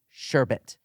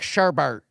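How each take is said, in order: First: The second syllable has no R sound. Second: The second syllable has an added R sound. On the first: The speaker calls it right. "spelled A S H E R, sure, B E T, sherbet" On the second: The speaker calls it wrong. "we're Americans and we're like sherbet. We add R's where there are no R's"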